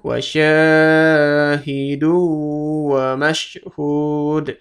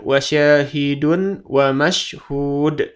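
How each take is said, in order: First: The n merges into the next word, held nasally. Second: The n is said separately before the next word. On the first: The speaker calls it right. "tapi masuk ke sini. Dan ditahan dua ketukan" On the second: The speaker calls it wrong. "Bukan wasyahidun wa mashhud. Bukan dun"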